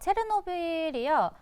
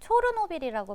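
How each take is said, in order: First: The first syllable is pronounced 'che'. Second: The first syllable is pronounced 'cho'. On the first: This is how the English spelling is pronounced. "영어로 표시했을 때 그렇게 발음이 나고" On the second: This is the original local pronunciation. "원래는 초르노빌이라고 발음을 하는 게 맞는데"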